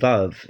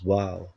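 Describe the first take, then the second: First: The word begins and ends with a v sound. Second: The word begins and ends with a w sound. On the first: This is the modern pronunciation. "Pronounced Vav in modern Hebrew" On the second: This is the old pronunciation. "its old pronunciation was wow"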